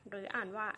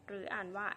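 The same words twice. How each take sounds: No difference in how they are said.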